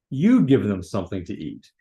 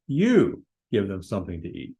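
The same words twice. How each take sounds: First: You punched louder at the start; emphatic You leading the command; stress on you. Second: The command said with weight on You; emphatic you. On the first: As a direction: hit the word You hard, then finish plainly. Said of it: "the "you" in the Greek is in an emphatic position". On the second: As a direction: lean on You, then finish plainly. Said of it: "Looks like he yelled it". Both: Shown as a demonstration.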